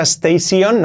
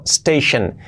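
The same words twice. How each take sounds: First: "station" as rising tei-SION; full "-sion" on "station"; wrong pronunciation. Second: "station" as STEI-shen; falling "station", weak "shen"; correct pronunciation. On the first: Teacher warns learners off this: "station" ending "-sion". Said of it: "sobre todo no sea station". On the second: Teacher gives correction: "station" as STEI-shen. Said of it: "no, station". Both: Shown as a demonstration.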